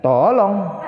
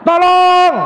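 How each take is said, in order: First: It is said without strong urgency. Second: It is said loudly and with strong urgency. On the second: "yang paling jos yang nomor berapa, Pak? Yang terakhir"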